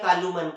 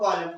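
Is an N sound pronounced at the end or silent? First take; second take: pronounced; silent. First: An N sound is pronounced at the end. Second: The word ends without an N sound. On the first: The speaker calls it wrong. "इसे हम लोग ऐसा नहीं बोलते" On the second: The speaker calls it right. "क्या पढ़ते हैं"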